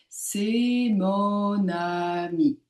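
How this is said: Syllables flow together with long, joined vowels. "travailler vraiment sur la continuité sonore et d'allonger les voyelles"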